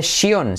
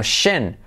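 First: "shion" with Spanish I and O, "shi-ON"; wrong ending. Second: "shen" as one syllable, long SH; short vowel after hushing SH in "shen"; correct ending. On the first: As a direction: say "shion" with two full vowels. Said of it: "Y nada de shion". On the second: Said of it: "sino shen". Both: Shown as a demonstration.

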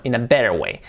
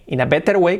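First: Lower, flowing "better way"; corrected pronunciation. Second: "better" with hard T, BE-TER; higher-pitched Spanish-style "better way"; imitated mistake. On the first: Shown as a demonstration. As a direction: model American "better", like BEH-der. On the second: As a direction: copy the learner's fully sounded T in "better". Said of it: "como dice él, no".

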